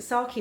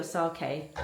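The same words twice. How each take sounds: First: "sake" with a final ee, SAH-kee. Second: "sake" with a final ay, SAH-kay. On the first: Vlogger checking how to say the drink, "sake" as SAH-kee. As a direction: say "sake" ending in a "kee" sound. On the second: Vlogger offering the other pronunciation, "sake" as SAH-kay. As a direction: say "sake" ending in a "kay" sound. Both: Shown as a demonstration. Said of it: "Is it sake or sake?".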